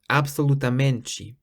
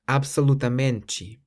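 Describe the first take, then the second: First: The final 'te' sounds like 'chee'. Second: The final 'te' sounds like 'chee'.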